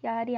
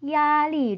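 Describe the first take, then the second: First: The syllables are short, like Korean. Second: The syllables are long and drawn out. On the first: The speaker calls it wrong. "야리 아니고" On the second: The speaker calls it right. "음절을 중국어 음절 길게 읽어 주셔야 돼요"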